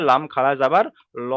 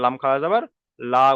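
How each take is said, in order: First: ল rounded and heavy, like 'lo'; full heavy L. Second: লা open and light, like 'laa'; thin light L. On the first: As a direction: fill out the ল into 'lo'. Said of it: "এখানে পুর করে পড়তে হবে". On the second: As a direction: keep the লা thin. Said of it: "বারিক পড়বো". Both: Shown as a demonstration.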